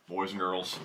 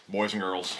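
No difference in how they are said.

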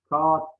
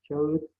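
First: "Kağıt" with one long a, kaat; long a swallowing the ı of "Kağıt"; misspelt form. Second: Said in the usual way. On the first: Shown as a demonstration. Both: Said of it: "Kağıt değil".

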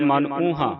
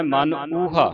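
First: ਊਹਾ mistakenly ending in a nasal "haan"; wrong nasal ending. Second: ਊਹਾ with a pure oral final "haa"; no nasal ending. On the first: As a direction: nasalise the last vowel of ਊਹਾ. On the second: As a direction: end ਊਹਾ open, without any bindi. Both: Shown as a demonstration. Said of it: "ਬਿੰਦੀ ਨਹੀਂ ਲਾਉਣੀ".

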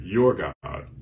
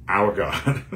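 First: "Your God" with YOUR pressed firm and falling; stress on your. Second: "Our God" with OUR lifted on a rising tune; stress on our. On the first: Preacher contrasting the king's words: stressed "Your". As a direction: lean hard on "Your", then let "God" drop. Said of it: "Now notice the king said". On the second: Preacher showing what the king didn't say: stressed "Our". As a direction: push "Our" up as the version never said. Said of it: "King didn't say". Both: Shown as a demonstration.

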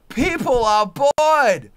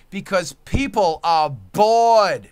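First: Higher and louder, slow and hammered; enraged repeat, drawn out; slow furious shout. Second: Louder, slower, leaning on bored; slow loud rant line; loud slow declaration. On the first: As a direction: yell each word of people are bored. Rant peak repeat. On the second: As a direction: hammer home that people are bored. Rant building. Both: Real, not acted.

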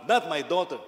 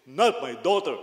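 First: Loud, booming no from a strict father; big baritone voice. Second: Loud, booming fatherly refusal; big baritone voice. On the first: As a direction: thunder it out, protective dad. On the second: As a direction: boom it like a strict pastor. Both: Retold or imitated. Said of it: "With a big baritone voice".

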